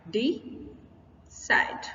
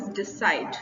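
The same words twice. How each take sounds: First: Decide broken as "dee", long pause, SIDE; syllable-by-syllable stress. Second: Said in the usual way. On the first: Shown as a demonstration. Teacher breaking the word down, decide as "dee", pause, SIDE. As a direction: split decide in two, landing on SIDE. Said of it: "second syllable पर हम stress लगा रहे हैं". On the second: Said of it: "second syllable पर हम stress".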